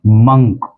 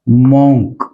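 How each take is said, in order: First: मंक as "munk"; मंक rhyming with "sunk"; correct pronunciation. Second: मॉन्क with a round "o", like "monk" as mawnk; common mispronunciation. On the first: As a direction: say मंक with a short "uh". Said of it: "इसको बोला जाएगा". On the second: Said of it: "जिसे हम गलत बोलते हैं". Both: Shown as a demonstration.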